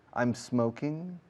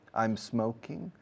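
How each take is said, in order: First: The s is joined straight onto the m. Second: The s is joined straight onto the m.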